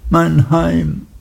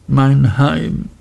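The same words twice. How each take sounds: First: Deutlich höher, fast weinend; brechend klagend. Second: Etwas höher, sehnsüchtig; wehmütig. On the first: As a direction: mein Heim verzweifelt nachrufen. (Emly wiederholt schmerzvoll ihr Heim) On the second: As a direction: Mein Heim leise beklagen. (Emly sehnt sich nach ihrem Heim) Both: A narrator's reading. Emly klagt um ihr Heim.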